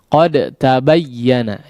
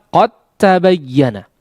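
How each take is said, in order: First: The d is released with a bounce before t. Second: The d merges completely into the following t. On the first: The speaker calls it wrong. "karena huruf dal memiliki sifat qalqalah ya, maka sedikit terkecoh" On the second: The speaker calls it right. "yang benar dalam pengucapannya adalah qad tabayyana. Masuk secara sempurna langsung kepada huruf ta"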